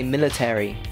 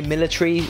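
First: American accent, with one extra syllable. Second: British accent, with one syllable fewer. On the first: "Americans say military. They add an extra syllable" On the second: "I say military"

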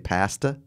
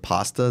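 First: Pasta is pronounced in a Canadian way. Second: Pasta is pronounced in the usual non-Canadian way.

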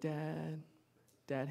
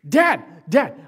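First: It is said casually, without urgency. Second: It is cried out desperately.

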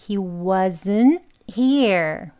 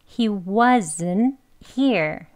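The two takes are said the same way.

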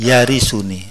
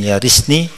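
First: The word ends with an added 'u' before 'ni'. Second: The word ends in a short 'ni' syllable. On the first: The verb is read in the indicative, describing the heir. The speaker calls it right. "tapi yarisuni" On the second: The verb is read in the jussive, as the answer to a command. The speaker calls it wrong. "boten yarisni"

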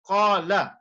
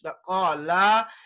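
First: The vowel is kept short. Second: The vowel is stretched out longer. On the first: One person said it. "The word qala means he said" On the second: Several people said it. "so if you stretch it, like even that much"

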